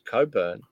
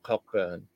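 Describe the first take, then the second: First: The name is said without a k sound. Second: The name is said with a k sound. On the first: The speaker calls it right. "It's Coburn" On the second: The speaker calls it wrong. "If there's a cock in there, you pronounce it"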